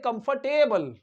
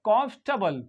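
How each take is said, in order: First: The ending is said as a full 'table'. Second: The ending is reduced, without a full 'table'. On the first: The speaker calls it wrong. "कंफर्टेबल ऐसे बोलते हैं, लेकिन गलत" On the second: The speaker calls it right. "इसको टेबल नहीं पढ़ते"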